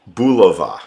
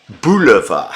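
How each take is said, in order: First: Said in the usual way. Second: Louder, breaking into a laugh on "Bulova"; laughing shout. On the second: Real, not acted. Streamer cracking up at a viewer's comment, laughing shout.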